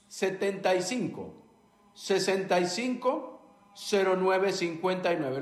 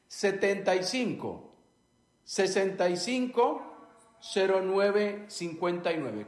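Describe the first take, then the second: First: The number is said quickly in one run. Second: The number is said slowly, in separate chunks.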